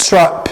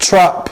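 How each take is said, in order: Both takes have the same delivery.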